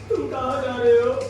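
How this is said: The line is spoken in a crying voice. "रो के बोलना है तो कैसे बोलेंगे"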